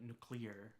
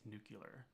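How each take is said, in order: First: The word has a standard pronunciation. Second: The word has a regional Wisconsin pronunciation. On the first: This is the more usual way to say it. "but nuclear" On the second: This is how the speaker habitually says it. "I always say nuclear"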